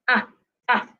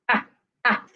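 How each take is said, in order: Both takes have the same delivery.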